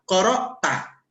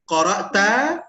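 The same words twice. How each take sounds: First: It is said flat, as a statement. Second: It is said with question intonation, rising.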